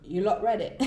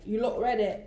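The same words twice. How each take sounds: First: Put-on a light British accent. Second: Put-on a light British accent again. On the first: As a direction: try on a British accent, quick and bouncy. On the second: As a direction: mimic the singer in a British accent. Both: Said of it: "I'm giving you my best British accent".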